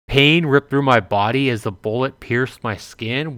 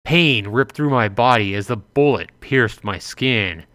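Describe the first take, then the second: First: Rising disbelieving question on skin; incredulous reread. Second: Said in the usual way. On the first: Shown as a demonstration. Player rereading the shock line, incredulous. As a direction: reread the line as if you can't believe it. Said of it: "rereads in disbelief".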